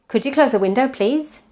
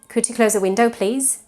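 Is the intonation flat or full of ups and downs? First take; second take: flat; flat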